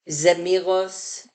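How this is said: The word ends with an S sound. "they have zemiros"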